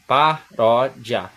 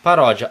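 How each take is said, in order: First: "Paródia" split very slowly into pa-ró-dia, each syllable separate. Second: Said in the usual way. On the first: Shown as a demonstration. Teacher showing students the syllable separation, very slow. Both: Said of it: "olha a separação".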